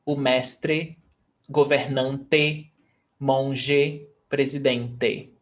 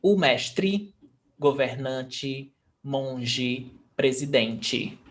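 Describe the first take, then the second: First: "mestre, governante, monge, presidente" ending in an open "eh"; final E as E. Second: "mestre, governante, monge, presidente" ending in an ee sound; final E as I. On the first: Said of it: "they do pronounce E". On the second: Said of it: "they are pronounced as I". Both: Shown as a demonstration.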